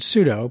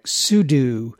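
First: It sounds like the word pseudo, ending 'doh'. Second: It sounds like 'sue-doo', ending 'doo'. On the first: This is how most people say it. "Most people pronounce it like the word pseudo" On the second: This is how older users say it. "us oldies pronounced it like sudo"

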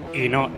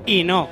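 First: It is said plainly, without extra emphasis. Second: It is said with strong emphasis on the no.

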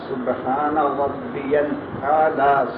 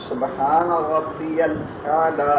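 Both takes have the same delivery.

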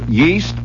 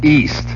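First: The word begins with a Y sound. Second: The word begins with no Y sound. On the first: "They pronounce the Y" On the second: "to not pronounce the Y"

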